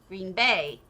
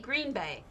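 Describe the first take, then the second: First: The stress falls on the second word. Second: The stress falls on the first word. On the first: The speaker calls it wrong. "the second part of word, uh, two word phrases... He always says it weirdly" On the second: The speaker calls it right. "I say Green Bay"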